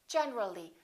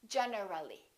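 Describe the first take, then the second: First: The middle vowel syllable is dropped entirely. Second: An extra middle vowel syllable is pronounced. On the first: The speaker calls it right. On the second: The speaker calls it wrong.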